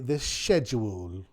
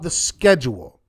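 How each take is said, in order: First: Schedule is said with a British pronunciation. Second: Schedule is said with an American pronunciation.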